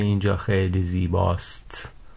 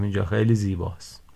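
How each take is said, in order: First: The final t sound is clearly pronounced. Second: The final t sound is dropped. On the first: The speaker calls it wrong. "نمیگیم که" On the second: The speaker calls it right. "میگیم ... تهشو نمیگیم"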